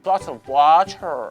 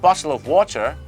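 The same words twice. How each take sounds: First: It is pronounced in an exaggerated, affected way. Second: It is pronounced in a natural, unaffected way. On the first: The speaker calls it wrong. "ถ้าอยากจะใส่กระแดะและดัตช์ริชเกินเหตุ" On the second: The speaker calls it right. "ก็เป็นการออกเสียงที่ถูกต้องเนี่ยนะครับแต่ไม่ได้กระแดะ"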